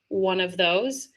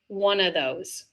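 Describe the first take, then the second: First: The V sound in 'of' is clearly pronounced. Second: The V sound in 'of' is left out. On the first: "you could hear the V sound" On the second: "drop off the V sound altogether"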